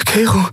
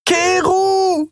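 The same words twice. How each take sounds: First: Short, high-pitched alarmed address; high, brief and apprehensive; uneasy call. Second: Very high, drawn-out desperate call; long high-pitched scream; screamed name. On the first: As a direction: say the name warily, backing away. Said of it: "sagte Endrel und wich einen Schritt zurück". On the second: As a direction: cry the name after someone leaving. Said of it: "schrie sie". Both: Acted.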